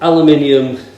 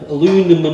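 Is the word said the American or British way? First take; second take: British; American. First: It is said the British way, aluminium. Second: It is said the American way, aluminum.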